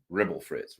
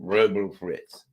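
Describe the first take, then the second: First: A quicker, lighter mumble; mumbled. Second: Slow, slurred mock mumble; mumbled imitation. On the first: Retold or imitated. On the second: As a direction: mumble it like a confused old man.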